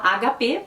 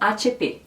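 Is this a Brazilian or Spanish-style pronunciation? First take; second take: Brazilian; Spanish. First: The letters are named with Brazilian Portuguese letter names. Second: The letters are named with Spanish letter names. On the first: "no Brasil a gente fala H P" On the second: "Por isso a marca é conhecida como H P"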